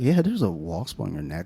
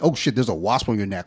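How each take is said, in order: First: It is said in a relaxed, casual tone. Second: It is said in an alarmed, urgent tone.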